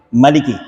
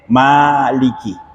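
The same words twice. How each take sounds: First: The first vowel is kept short. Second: The first vowel is drawn out long. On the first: It means king. "Sedangkan Maliki cuma tiga, mim, lam, kef" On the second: It means owner. "Karena Maliki ada empat huruf, mim, alif, lam, kef"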